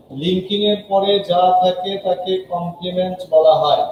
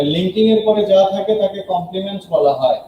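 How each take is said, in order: First: Slower, each phrase set apart for students to learn; a teacher repeating a rule slowly; slow for memorizing. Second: Said in the usual way. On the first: Shown as a demonstration. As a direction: spell it out slowly so the class can memorize it. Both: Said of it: "একটা কথা মুখস্থ করে ফেলে".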